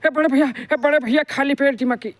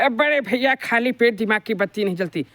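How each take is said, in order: First: Motu's voice sounds hurried and out of breath. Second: Motu's voice sounds happy and cheerful.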